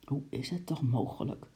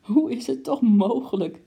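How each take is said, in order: First: Soft, dejected mumble; defeated mumble. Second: Much higher, louder, bursting with laughter; spluttering laugh. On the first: Lady mumbles in dismay at her sinking coat, soft. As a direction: mumble it, beaten. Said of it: "mompelde mevrouw Kwant verslagen". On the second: Lady cries out laughing at her ruined coat, high and loud. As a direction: cry it out while snorting with laughter. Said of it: "riep ze steeds weer proestend uit". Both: Acted.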